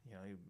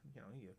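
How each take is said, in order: Both takes have the same delivery.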